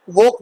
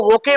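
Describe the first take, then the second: First: वोक as one syllable, silent e; correct pronunciation. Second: वोके with a sounded final "ay" vowel; mispronunciation. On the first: Teacher shows how to read woke, one-syllable वोक. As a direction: say वोक ending on the k, "wohk". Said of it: "वोक पढ़ना". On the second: Teacher warns against reading woke by spelling, two-syllable वोके. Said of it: "इसको वोके मत पढ़ना". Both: Shown as a demonstration.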